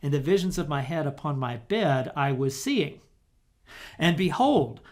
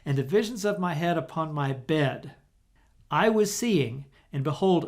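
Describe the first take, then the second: First: The main pause comes right after 'seeing'. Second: The main pause comes right after 'bed'. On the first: The seeing belongs to the visions of the head. "if we had placed the major pause here, it would read like this" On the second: The seeing belongs to what follows. "Placing the major pause right here"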